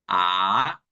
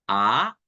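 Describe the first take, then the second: First: The pitch dips low and then rises. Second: The pitch rises from middle to high.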